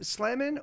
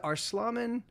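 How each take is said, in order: First: "Slammin" with the short a of "slam"; SLAM vowel. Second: "Arslamin" with an "ah" in the middle; broad AH vowel. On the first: Streamer checking a viewer's handle, "Slammin" with a flat "slam" vowel. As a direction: say "Slammin" rhyming with "jammin". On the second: Streamer checking a viewer's handle, "Arslamin" with an open "ah". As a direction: say "Arslamin" as ars-LAH-min. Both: Shown as a demonstration. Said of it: "or is it Arslamin".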